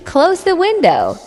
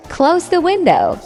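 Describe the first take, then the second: No difference in how they are said.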